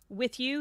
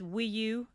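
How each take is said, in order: First: The words are said clearly and fully. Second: The words are mumbled, dropping the final sound. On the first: The speaker calls it right. "Like he says" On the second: The speaker calls it wrong. "he's mumbling when he sings it, and he's not enunciating"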